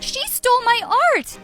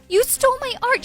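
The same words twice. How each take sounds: First: Loud, high cry with STOLE hit hard; furious accusation. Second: Loud, high, furious cry with ART hit hard; furious accusation. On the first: Daughter denouncing her mother to the reporters, furious. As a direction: turn to the crowd and denounce her. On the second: Daughter accusing her mother to her face, furious. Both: Acted.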